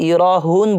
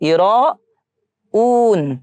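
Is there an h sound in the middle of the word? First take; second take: yes; no. First: An h sound is heard before the final vowel. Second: No h sound is heard before the final vowel. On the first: The speaker calls it wrong. "এখানে আমরা অনেকে বলি ইরাহুন বলি, সো ইরাহুন হবে না" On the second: The speaker calls it right. "হবে ইরাউন"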